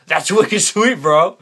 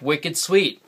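First: High, loud "That's wicked sweet, bro"; hammed-up bro enthusiasm; hyped slang. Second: Said in the usual way. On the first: Shown as a demonstration. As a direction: hype it up like a pumped-up bro. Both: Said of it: "I say things that you might not say".

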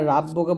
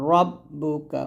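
First: রাব্বুকা said with a light, thin র; wrong thin ra. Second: রব্বুকা with a full, thick র; heavy ra. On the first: Teacher demonstrating the mistake students make, thin ra. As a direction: show the mistake, ra kept thin. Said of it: "এখানে রাব্বুকা বলবেন না". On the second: Teacher giving students the correct heavy ra. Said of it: "রটা মোটা করে". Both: Shown as a demonstration.

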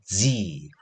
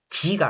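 First: G said as a drawn-out English jee; corrected pronunciation. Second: G said as a short Korean 지; wrong pronunciation. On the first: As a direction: model English G, low and held long. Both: Shown as a demonstration. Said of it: "G가 아니에요".

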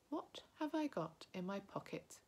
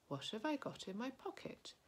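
First: Said in the usual way. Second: Higher, more insistent question; said louder. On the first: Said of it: "he said aloud". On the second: A narrator's reading. Bilbo repeats his question to Gollum, higher and insistent. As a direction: press the question on him again. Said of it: "he said louder".

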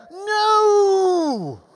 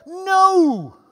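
First: Long, higher shouted no with a crack of feeling; most emphatic shout. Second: A louder, higher no; more emphatic no. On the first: Preacher topping his last no with a full shouted no. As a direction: hold the no out like a cry from the pulpit. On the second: Preacher escalating his answer to the email, emphatic no. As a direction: raise the stakes on a single word. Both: Real, not acted. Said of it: "Let me be more emphatic".

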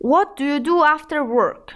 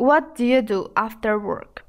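First: Said in the usual way. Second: First "do you" shortened to "d'ya", like "dee-uh"; reduced do you. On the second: Shown as a demonstration. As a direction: blend "do you" into a weak "diya". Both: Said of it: "چگونه ما do you را دیه تلفظ".

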